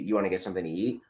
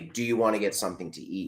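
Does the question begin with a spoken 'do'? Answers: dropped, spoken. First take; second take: dropped; spoken. First: The question starts directly with 'you', no 'do'. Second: The question starts with a fully spoken 'do'. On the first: It sounds casual and everyday. The speaker calls it right. "You say" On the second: It sounds formal. The speaker calls it wrong. "You don't say"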